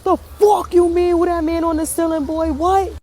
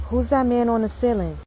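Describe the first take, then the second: First: High-pitched incredulous outburst; alarmed disbelief. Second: Put-on little boy's question. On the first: Retold or imitated. Parent reacts to man on ceiling, alarmed. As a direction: echo it back in high, panicked disbelief. Alarmed echo of son's question. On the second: Son asks parent about the ceiling, innocently. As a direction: deliver it simply, like a curious kid. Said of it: "this little boy said to me".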